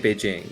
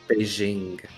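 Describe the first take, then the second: First: It is said the way speakers in China say it. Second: It is said with the American exoticized pronunciation. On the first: The speaker calls it right. "They do say Beijing, yes" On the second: The speaker calls it wrong. "And what's the American way? Beijing"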